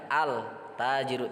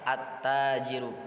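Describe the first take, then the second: First: The L is clearly pronounced before the T. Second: The L merges into the following T sound. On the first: The speaker calls it wrong. "kita tidak boleh mengatakan al tajiru" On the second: The speaker calls it right. "huruf ta"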